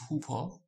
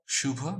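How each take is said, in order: First: The word begins with an h sound. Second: The word begins with an sh sound. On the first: This is the Assamese pronunciation. "In dantasha in Assamese is pronounced as ha" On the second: This is the Hindi pronunciation. "Sha becomes ha"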